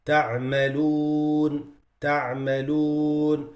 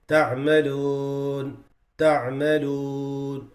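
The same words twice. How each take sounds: First: تعملون with rounded lips on the waw; correct تعملون. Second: تعملون with lips left open on the waw; wrong flat تعملون. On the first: Teacher showing students the right تعملون. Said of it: "instead of saying". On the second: Teacher showing students a wrong flat تعملون. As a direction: say تعملون without rounding the lips. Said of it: "very light". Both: Shown as a demonstration.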